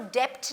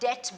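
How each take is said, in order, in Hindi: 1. t से पहले b की ध्वनि सुनाई देती है। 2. t से पहले कोई b की ध्वनि सुनाई नहीं देती। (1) "हम इसको डेप्ट नहीं बोलते" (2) "हम इसको डेट बोलते हैं"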